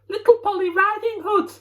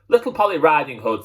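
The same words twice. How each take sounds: First: It is said in a high, squeaky voice. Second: It is said in a low, gruff voice. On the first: The speaker is disguising who he is. "he said in a squeaky voice" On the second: The speaker forgets to hide who he is. "quite forgetting to disguise his voice this time"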